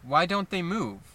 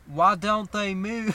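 First: It is said in his natural voice. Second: It is said in a put-on voice.

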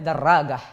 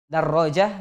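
First: The middle consonant is a hard g sound. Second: The middle consonant is a j sound. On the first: This is everyday Egyptian dialect speech. "Orang Mesir ketika mengucapkan huruf ja, itu biasa menggunakan huruf go" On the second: This is the standard Arabic pronunciation. "Ja dibaca go. Darrojah jadi darragah"

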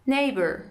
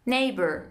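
The two takes are said the same way.

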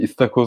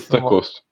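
First: The first vowel is a front 'ee' sound. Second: The first vowel is a back unrounded sound. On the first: The speaker calls it wrong. "O bir Laz şivesinde oturtturuyorlar ya" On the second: This is the standard form. The speaker calls it right. "Doğrusu"

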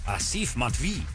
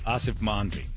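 First: The name is said with an exaggerated foreign accent. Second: The name is said plainly, without exaggeration. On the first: The speaker calls it wrong. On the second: The speaker calls it right.

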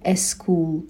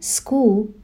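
First: An extra vowel comes before the s sound. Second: The word begins directly with the s sound. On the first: The speaker calls it wrong. "یک ا اضافه میکنن" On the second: The speaker calls it right. "به جای اینکه بگن school"

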